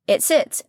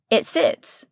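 First: Said in the usual way. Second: Hushed. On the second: Acted. Seed lying still in soil.

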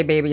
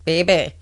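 First: Said in the usual way. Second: Put-on "baby" with a Cajun twang; drawn-out New Orleans "bay-bay". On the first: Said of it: "I'm not saying it in the true New Orleans way". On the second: Shown as a demonstration. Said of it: "that Cajun twang on it".

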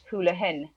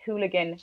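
First: Hooligan said as HOO-luh-hin; Irish-sounding hooligan. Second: Hooligan with a hard g in the last syllable; English hooligan. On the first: Showing how close the Irish word is, hooligan as hoolihan. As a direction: soften the g of hooligan to an h. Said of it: "They're very, very similar". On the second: Explaining the word to listeners, hooligan with a hard g. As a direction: say hooligan with a clear G. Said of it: "when you say, like, hooligan". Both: Shown as a demonstration.

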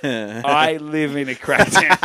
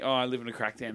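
First: Slow, loud and emphatic; each word weighted, drawn-out and forceful; emphatic literal statement. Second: Soft, offhand joke; low-key, kidding delivery; jokingly. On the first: Real, not acted. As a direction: spell it out slowly, as the actual truth. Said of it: "it's like a funny joke". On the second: Retold or imitated. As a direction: toss it off lightly as a throwaway joke. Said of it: "oh, jokingly".

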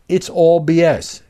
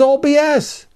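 First: "It's all B S." said slowly and louder, each word leaned on; repeating the verdict to drive it home, slow and loud; slow, firm emphasis. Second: Said in the usual way. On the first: Shown as a demonstration. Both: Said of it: "inevitable way to say this".

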